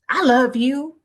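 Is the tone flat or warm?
flat. It is said flatly, without feeling.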